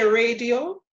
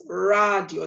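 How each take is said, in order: First: Said in the usual way. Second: "radio" as RAH-dyo, with open a; slow Spanish "radio", RAH-dyo rather than RAY-dee-oh; Spanish pronunciation. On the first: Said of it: "in English, we would say". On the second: Shown as a demonstration. Teacher contrasts it with English, "radio" said RAH-dyo. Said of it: "That's the only thing that is different".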